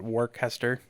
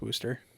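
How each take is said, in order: First: The name is said fully, as it is spelled. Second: The name is shortened to sound like Woosta. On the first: The speaker calls it wrong. "I always used to call it Worcester, even though it's not right at all" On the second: The speaker calls it right. "No, it's Worcester"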